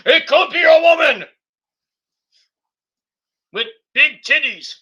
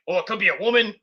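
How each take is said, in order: First: Much higher and louder, leering yell; mock excited shout. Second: Said in the usual way. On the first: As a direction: shout it like a dirty old man. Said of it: "And Vince is like". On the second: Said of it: "Vince is like".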